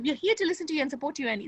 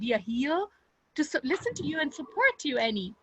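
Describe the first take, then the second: First: It is said fast and rushed. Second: It is said slowly and gently.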